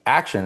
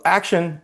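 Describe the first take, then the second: First: Restrained echo of a radio cue; imitated walkie-talkie call. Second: Imitated yell. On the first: Cue relayed over the walkie-talkie inside, understated mock call. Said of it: "comes over the walkie-talkie". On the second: Retelling the crew starting the shot, high mock yell. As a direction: call the cue out high, without real force. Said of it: "And they yelled".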